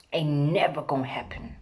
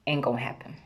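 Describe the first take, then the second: First: Whispered dismissive repeat; a sly whispered aside. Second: Said in the usual way. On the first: Real, not acted. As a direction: drop to a whisper to drive it home.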